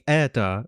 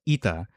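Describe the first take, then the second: First: The first vowel is an open 'eh' sound. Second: The first vowel is a raised 'ee' sound. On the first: This is the older pronunciation. "it used to be eta" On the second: This is the modern pronunciation. "but now it's ita"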